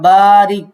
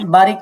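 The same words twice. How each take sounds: First: The first vowel is lengthened. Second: The first vowel is short. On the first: The speaker calls it right. "বাতে মাদ আছে" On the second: The speaker calls it wrong. "বারিক না"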